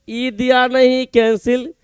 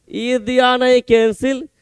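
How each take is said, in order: Both takes have the same delivery.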